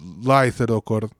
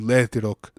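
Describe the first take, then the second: First: The word ends with an 'or' syllable. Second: The word ends without the 'or' syllable. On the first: This is the full form. "is called Laithirokor" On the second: This is the Western dialect contraction. "in the Western dialect, it's called Letirok"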